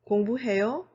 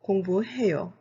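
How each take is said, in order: First: The pitch rises at the end. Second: The pitch falls at the end. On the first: It asks whether someone studies. "with a question mark using the rising intonation" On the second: It states that someone studies. "with a period using the falling intonation"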